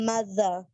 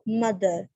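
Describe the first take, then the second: First: The middle consonant is a soft th sound. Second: The middle consonant is a hard d sound. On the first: The speaker calls it right. "Just like in words" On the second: The speaker calls it wrong. "जब आप इसको पाकिस्तानी वे में pronounce करते हो ... जो कि गलत है"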